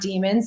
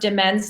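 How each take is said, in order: First: The name is said like the word demons. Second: The name is said to rhyme with amends. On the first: The speaker calls it wrong. "not Demons" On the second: The speaker calls it right. "it's pronounced Demens Landing"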